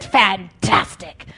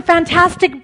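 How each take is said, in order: First: "fantastic" drawn out slow and low, unimpressed; deadpan mock. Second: "fantastic" gushed loud and high, falling at the end; mock gushing. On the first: Preacher deflating the hype, "fantastic" slow and low. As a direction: let "fantastic" sag, slow and flat-out unimpressed. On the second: Preacher parodying hype, "fantastic" loud and high. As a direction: sell "fantastic" like a hype man. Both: Mocking hype about worship services.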